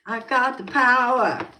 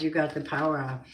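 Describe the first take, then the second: First: Sung, high, loud and slow, like a chorus; sung, burst into the song line, higher and louder; sung, belted song line. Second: Said in the usual way. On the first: Pretend. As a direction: sing it out triumphantly.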